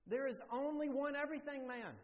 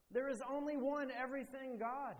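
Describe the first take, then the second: First: High, louder proclamation on only; preaching emphasis. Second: High, louder proclamation hitting one; preaching emphasis. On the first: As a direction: proclaim it to the whole room. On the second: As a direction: land the final word of the sermon point. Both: Real, not acted. Preacher drives home the point.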